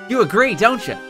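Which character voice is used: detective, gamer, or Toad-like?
gamer. It is a put-on gamer-style voice. The speaker calls it right. "I think the gamer voice works best for her"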